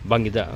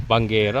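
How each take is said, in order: First: Says Bangida instead of Banggera; Bangida, with an i and a d in place of the correct ending; wrong word. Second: Banggera said right after the correction; Banggera, ending in -ggera; corrected word. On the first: (maling bigkas na Bangida sa halip na Banggera) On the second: (itinamang bigkas na Banggera) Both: Real, not acted.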